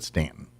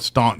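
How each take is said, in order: First: The first syllable rhymes with 'can'. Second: The first syllable rhymes with 'lawn'. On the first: This is how the town's own people say it. The speaker calls it right. "They call it Stanton, and it's just Stanton" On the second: This marks the speaker as an outsider. The speaker calls it wrong. "that's how they know you're not from around these parts"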